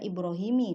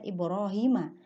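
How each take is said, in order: First: The name ends with an 'i' vowel. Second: The name ends with an 'a' vowel. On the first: The speaker calls it wrong. "tidak boleh dibaca Ibrahimi" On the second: The speaker calls it right. "harus dibaca Ibrahima"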